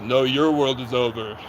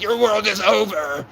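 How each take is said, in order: First: Slow, lower, lightly voiced cop threat; a hint of a menacing officer; mock officer. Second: Slow, higher, mock-menacing warning; retold defiant threat, lightly acted. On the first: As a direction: drag out a smug cop's comeback. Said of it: "And he goes". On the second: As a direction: taunt him slowly and pointedly. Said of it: "I'm like".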